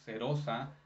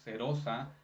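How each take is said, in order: First: The R is a soft single tap. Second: The R is a soft single tap.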